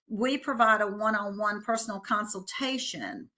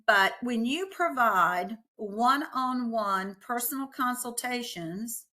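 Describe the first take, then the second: First: It is said quickly. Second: It is said more slowly.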